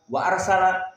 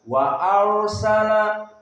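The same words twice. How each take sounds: First: The r sound is cut off abruptly. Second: The r sound is held only briefly. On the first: The speaker calls it wrong. "Seperti idhar yang cepat" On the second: The speaker calls it right. "tetapi wa arsala ada waktu"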